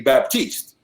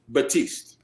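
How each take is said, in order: First: The name is said with a P sound. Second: The name is said without a P sound. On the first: This is how English speakers would normally say it. "they would normally pronounce the P" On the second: This is the French way of saying the name. "but that's in French"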